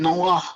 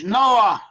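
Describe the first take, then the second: First: The name ends with a throaty h sound. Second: The name ends on an open vowel. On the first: "In Hebrew, you pronounce it Noah with a kasar ha at the end" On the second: "But in English"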